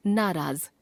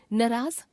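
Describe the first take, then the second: First: Said in the usual way. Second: नाराज as "naraaz" with short first vowel; wrong pronunciation. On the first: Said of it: "शुद्ध". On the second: Shown as a demonstration. Teacher showing a common error, नाराज with short first vowel. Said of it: "अशुद्ध".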